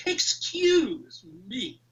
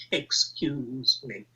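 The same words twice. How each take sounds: First: Slow, drawn-out, haughty "Excuse me"; entitled posh voice. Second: Mock posh voice. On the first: Retold or imitated. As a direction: demand attention like a posh Harrods shopper. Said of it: "And that was the voice". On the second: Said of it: "Your precious monuments".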